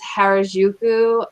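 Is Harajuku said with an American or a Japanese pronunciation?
American. It is said with an American English pronunciation.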